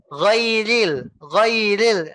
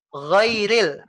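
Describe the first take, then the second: First: Ghairil with the ya fully completed before ri; full ya. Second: Ghairil with the ri taken too early; rushed ri. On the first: Teacher models Ghairil with a complete ya. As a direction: let the ya sound out fully. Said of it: "Ya-nya jadi jelek nanti". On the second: Teacher imitates the rushed Ghairil. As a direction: jump to the ri before the ya is complete. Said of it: "ngambil ri-nya terlalu dini". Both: Shown as a demonstration.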